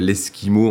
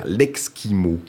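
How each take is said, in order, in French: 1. Le mot commence par un son 'es' simple. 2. Le mot commence par un son 'ks'.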